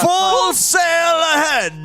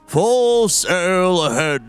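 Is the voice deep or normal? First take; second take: normal; deep. First: It is said in a normal, not deep voice. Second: It is said in a deeper, lower voice. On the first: The speaker calls it wrong. "doesn't fucking sound like Kunkka at all" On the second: The speaker calls it right. "You gotta do it deeper"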